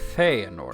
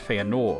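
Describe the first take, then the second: First: The stress falls on the first syllable. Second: The stress falls on a later syllable. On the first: The speaker calls it right. "the accent is on Fe" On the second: The speaker calls it wrong. "It's not Feanor"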